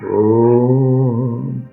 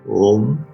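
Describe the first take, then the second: First: The o vowel is drawn out very long. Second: The o vowel is ordinary in length. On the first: It is the sacred pranava sound. "वो प्लुत ओ है ... इसकी तीन इकाई" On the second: It is the ordinary spoken word. "कंठ से। खूब विसर्जनीय कंठ यहां से है"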